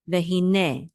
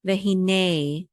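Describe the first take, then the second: First: Vehine ending in a short, pure eh; short final E. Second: Vehine ending in a drawn-out English ay; wrong long A ending. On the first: Teacher modelling the word, short E ending. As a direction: end vehine on neh, no glide. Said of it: "It's a shorter e sound". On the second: Teacher showing what not to say, long ay ending. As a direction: stretch the end of vehine into nay. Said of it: "Don't say vehine". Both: Shown as a demonstration.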